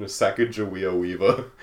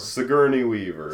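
First: "Sacagawea Weaver" in place of Sigourney; jokingly wrong name; deliberate mispronunciation. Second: "Sigourney Weaver" said normally; plain correct pronunciation; correct name. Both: Shown as a demonstration. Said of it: "keep pronouncing her name wrong".

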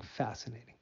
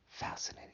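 First: Softly said, trailing off; soft murmur. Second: Breathy, unvoiced whisper. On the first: Acted. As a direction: let the word fade out quietly. Repeats word, then whispers it. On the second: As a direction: whisper the word to yourself. Same word repeated in a whisper.

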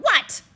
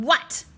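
First: What yelled loud and much higher. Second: What yelled loud and a bit higher. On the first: Principal yelling into the wrong end of the phone. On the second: Principal yelling into the right end of the phone. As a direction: yell What once more, a touch less pitched. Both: Acted.

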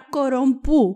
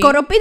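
First: Κορομπού with a Greek accent, ending in -ού; French word in Greek sounds: κορομπού; Greek-accented French reading. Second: Κοροπή with a plain -πή ending; Κοροπή, the misread French word ending in an ee sound; mistaken reading. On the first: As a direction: say κορομπού as French read with plain Greek sounds, -μπού at the end. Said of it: "θα σας το πω πάλι με ελληνική προφορά". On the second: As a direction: quote the misreading Κοροπή, ending in -πή instead of -μπού. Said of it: "δεν διαβάζεται". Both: Shown as a demonstration.

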